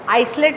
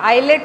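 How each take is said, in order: First: The word is said with an s sound. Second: The word is said without an s sound. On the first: The speaker calls it wrong. "आइसलेट नहीं बोलेंगे" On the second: The speaker calls it right. "एस silent होता है"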